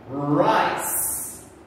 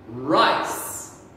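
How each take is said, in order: First: The word is said with a soft S sound. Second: The same.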